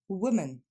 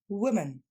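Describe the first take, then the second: No difference in how they are said.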